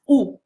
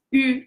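First: U as a plain back OO; Spanish-style U. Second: First U fronted and rounded, the French way. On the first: How Spanish learners say it, U as plain OO. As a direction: say U as OO, missing the French fronting. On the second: Spanish learners' problem explained, U in correct French rounded form. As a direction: say U between EE and OO. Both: Shown as a demonstration. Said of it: "we pronounce U as U".

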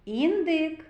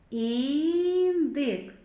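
First: Said in the usual way. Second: "Індик" with a very long "І"; first sound drawn out. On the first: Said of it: "Давайте зробимо звуковий аналіз слова". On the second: Shown as a demonstration. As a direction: stretch the opening "І" of "Індик", then finish the word. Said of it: "зробимо звуковий аналіз слова".

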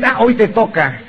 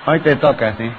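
First: Said in the usual way. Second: Laughing. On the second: Real, not acted.

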